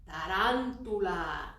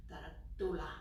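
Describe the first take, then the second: First: "Tarantula" said slowly, Spanish style, every syllable clear; Spanish word. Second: "tarantula" with Spanish vowels, quick; Spanish word. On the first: Teacher modelling the Spanish word, slow and clear. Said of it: "Can you say that?". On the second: Teacher introducing the Spanish word to kids. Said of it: "change the word to tarantula". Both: Shown as a demonstration.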